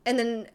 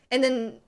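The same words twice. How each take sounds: The two takes are said the same way.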